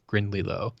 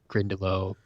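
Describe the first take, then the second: First: An extra L sound comes before the Y sound. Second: No extra L sound comes before the Y sound. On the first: The speaker calls it wrong. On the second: The speaker calls it right.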